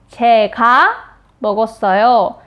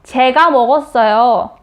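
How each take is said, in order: First: 제가 pressed, pause before 먹었어요; stress on 제가. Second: Said in the usual way. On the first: Shown as a demonstration. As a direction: lean on 제가, then pause. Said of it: "I'm the one who ate it". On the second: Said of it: "so you're gonna tell her the truth".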